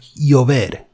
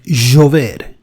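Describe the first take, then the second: First: The ll is said softer, Castilian style. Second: The ll is said strongest, Argentine style.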